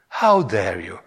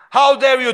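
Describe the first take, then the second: First: It is read calmly, without much drama. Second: It is read forcefully, with angry drama. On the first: The speaker calls it wrong. "No, he didn't say like that" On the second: The speaker calls it right. "You gotta read it with the drama"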